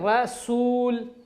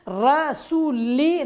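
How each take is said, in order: First: The word ends on a bare 'l' sound. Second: The word ends with a short 'i' vowel. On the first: The speaker calls it right. "बल्कि पढ़ेंगे रसूल, यानी हम इसको आखिर में साकिन कर देंगे" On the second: The speaker calls it wrong. "रसूली नहीं पढ़ेंगे"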